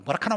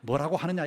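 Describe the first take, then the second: First: It is said in clipped Gyeongsang dialect. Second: It is said in full standard Korean.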